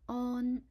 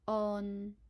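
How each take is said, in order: First: It is said in Cantonese tone one. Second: It is said in Cantonese tone three. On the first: "Its first tone is on" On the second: "third tone on"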